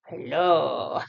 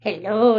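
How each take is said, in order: First: A deep, soft hello for the dog; low, quiet dog voice. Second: Said in the usual way. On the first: Pretend. Voicing the dog's hello.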